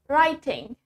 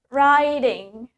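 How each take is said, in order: First: British accent, with a clearly spoken T. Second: American accent, with the T sounding like D. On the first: "In British English, we say the T clearly" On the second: "in American English, we say the T as D"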